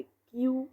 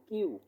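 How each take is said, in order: First: Said in the usual way. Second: কিউ as "khyu", puff after k; aspirated Q. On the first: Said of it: "no, no, no, এটা হবে কি". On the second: Shown as a demonstration. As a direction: release breath on the k of কিউ. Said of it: "এটা হবে কি?".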